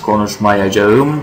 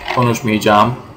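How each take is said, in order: First: The middle syllables 'aya' are fully pronounced. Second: The middle 'aya' shrinks to a long 'ı'. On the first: This is the standard written form. "Normally the standard language is this" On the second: This is the everyday spoken form. "this whole aya becomes a long ı"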